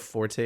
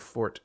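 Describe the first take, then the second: First: The word ends with an 'ay' vowel sound. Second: The word ends with a plain 't' sound. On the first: "are we a forte or a fort crowd" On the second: "are we a forte or a fort crowd"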